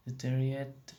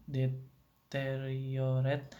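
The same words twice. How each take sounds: First: "deteriorate," shortened to de-TE-ri-et; syllable dropped. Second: "deteriorate," slowly, in full as de-te-ri-o-ret; every syllable kept. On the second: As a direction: draw out all syllables of "deteriorate,". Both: Shown as a demonstration. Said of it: "it may drop out altogether".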